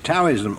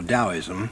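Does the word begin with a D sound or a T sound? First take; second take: T sound; D sound. First: The word begins with a T sound. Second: The word begins with a D sound. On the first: "T or D-A-O-I-S-M, whether we pronounce it Taoism" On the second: "usually pronounced as though it were a D"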